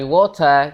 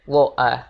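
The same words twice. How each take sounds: First: The T is fully pronounced. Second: The T is a glottal stop.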